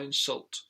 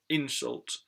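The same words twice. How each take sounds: First: The stress is on the second syllable. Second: The stress is on the first syllable. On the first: It is used as a verb. "when it's in its verb form, then it usually goes on the second syllable" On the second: It is used as a noun. "in the noun word, then the syllable usually is stressed, the first one"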